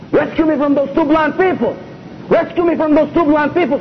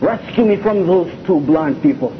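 First: Higher, louder urgent "Rescue me" plea; repeating the dream's plea for rescue, higher and louder. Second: Said in the usual way. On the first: Retold or imitated. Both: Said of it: "Three times the Prophet ... tell him".

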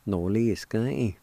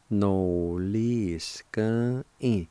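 First: Said in the usual way. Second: No-lis-gan-in drawn out; slow pronunciation. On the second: Shown as a demonstration. Teacher showing the word for intending, slow and drawn out. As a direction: stretch each syllable, nearly joined. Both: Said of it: "it's pronounced like this".

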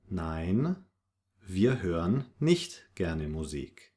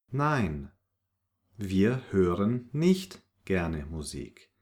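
No difference in how they are said.

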